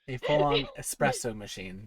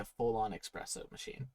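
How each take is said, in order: First: Espresso is said with a plain s sound. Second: Espresso is said with a ks sound. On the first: The speaker calls it right. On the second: The speaker calls it wrong. "There's no X"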